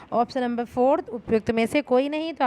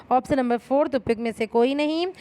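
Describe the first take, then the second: The two takes are said the same way.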